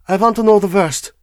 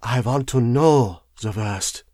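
First: High, loud, brisk demand; raised foreign-accented insistence; higher tone. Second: Slow, lowered, weighted words; slow foreign-accented emphasis, pitched down; lower tone, curious emphasis. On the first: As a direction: pitch it up and press firmly. First take, before lower repeat. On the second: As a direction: drop the voice and draw out KNOW. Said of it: "in a lower tone, with a curious emphasis". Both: A narrator's reading.

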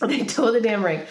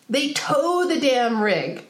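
First: Said again through a laugh; laughing repeat. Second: Drawn out, leaning hard on tow; slow outraged emphasis. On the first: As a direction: laugh it off this time. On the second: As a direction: spell it out slowly in disbelief. Outraged retelling of towing. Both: Real, not acted.

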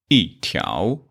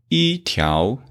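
First: 一条 with 一 falling, 条 dipping up; 一 in fourth tone. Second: 一条 with 一 high and level, 条 rising; 一 in first tone. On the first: Teacher gives the corrected example, 一 falling before rising 条. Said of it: "so this E changed to fourth tone". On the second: Teacher shows students the uncorrected form, 一 level in 一条. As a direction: keep 一 unchanged and level before rising 条. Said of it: "instead of 一条". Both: Shown as a demonstration.

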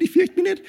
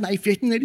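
First: A frantic last insistence, much higher than the first; desperate gritted-teeth denial. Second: A clenched, half-convinced "fürchte mich nicht"; teeth-gritted denial. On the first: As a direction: shout down your own fear. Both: Pretend. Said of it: "die Zähne zusammenbeißen".

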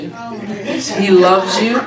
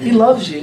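First: Stretched out slowly through a laugh. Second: Said in the usual way. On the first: Real, not acted. Preacher teasing a listener, laughing slowly. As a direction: let the laugh drag the words out.

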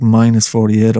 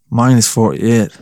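First: Said in the usual way. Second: Minus forty-eight said slower, leaning on Minus with a rise; emphatic repeat. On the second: Shown as a demonstration. Vlogger stressing the cold to viewers, slow emphatic Minus forty-eight.

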